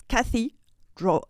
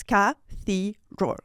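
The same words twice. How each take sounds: First: Cathedral slow, leaning on THEE; English stress. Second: Cathedral slow, split into ka, thee, dral; every syllable stressed. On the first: Showing how English differs, stress on THEE in cathedral. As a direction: hit the middle syllable of cathedral, ka-THEE-dral. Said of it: "In English, it's cathedral". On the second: Explaining French emphasis to a coach, evenly split cathedral. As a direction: give each syllable of cathedral equal weight. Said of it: "In French, every syllable is important". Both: Shown as a demonstration.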